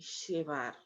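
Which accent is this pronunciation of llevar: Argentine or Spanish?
Argentine. It is said with an Argentine accent. "la pronunciación llevar y llevar"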